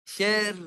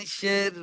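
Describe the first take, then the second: No difference in how they are said.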